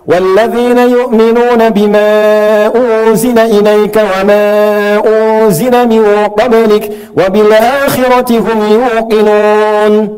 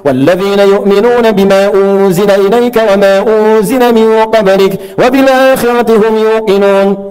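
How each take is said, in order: First: Long vowels are held longer, about two seconds. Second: Long vowels are held briefly, about one second. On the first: Suited to obligatory congregational prayers. "mutawassit yang empat harakat dua detik" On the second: Suited to long prayers with many verses. "bacaan cepat tadi yang satu detik disebut hadar"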